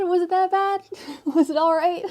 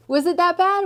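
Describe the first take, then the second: First: High, loud Aussie twang through laughter; Australian accent, laughing. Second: Mock Australian accent. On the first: Acted. Reader asks the viewer in a laughing Australian accent. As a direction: ask it in a giggly Australian voice. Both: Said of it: "I try".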